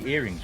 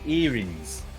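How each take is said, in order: First: The word ends with a full -ing sound. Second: The word ends with an -ins sound. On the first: "we wouldn't say earrings" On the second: "there's no ing. it's just ins"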